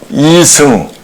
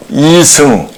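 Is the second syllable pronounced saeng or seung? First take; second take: seung; seung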